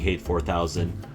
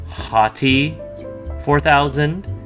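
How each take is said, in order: First: The name is said as one syllable, like 'hate'. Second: The name is said as two syllables, 'ha-tee'.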